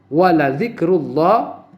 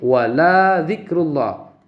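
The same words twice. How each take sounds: First: The vowel in 'la' is held short. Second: The vowel in 'la' is drawn out long. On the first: The speaker calls it right. "walanya pada huruf la itu adalah harus qasar" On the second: The speaker calls it wrong. "maka dibaca mad, berarti itu adalah dipan, dipanjangkan"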